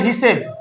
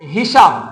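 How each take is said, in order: First: The second vowel is an 'e' sound. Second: The second vowel is an open 'a' sound. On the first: "অনেকে বলে হিসেব" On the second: "এখানে আ আছে"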